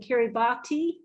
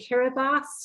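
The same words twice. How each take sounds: First: The ending 'ti' is pronounced with a t sound. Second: The ending 'ti' is pronounced as an s sound. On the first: This follows the written spelling of the name. The speaker calls it wrong. "rather than Kiribati" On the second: This is how the local people say the name. The speaker calls it right. "why I say Kiribati"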